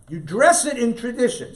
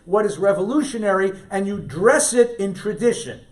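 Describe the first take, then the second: First: "dress" hit hard and higher; emphatic repeat. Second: Said in the usual way. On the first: Real, not acted. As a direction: punch "dress" as the key word. Principle echoed for emphasis.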